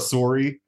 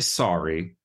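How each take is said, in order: First: The word has a Minnesota-accented vowel. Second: The word has a standard American vowel. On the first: "But are you looking for a sorry?" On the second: "I say sorry"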